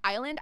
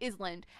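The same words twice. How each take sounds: First: The word has its standard pronunciation. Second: The word is pronounced the way it is spelled. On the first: The speaker calls it right. "instead of island" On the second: The speaker calls it wrong. "I used to say island"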